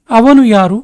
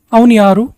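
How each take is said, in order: Both takes have the same delivery.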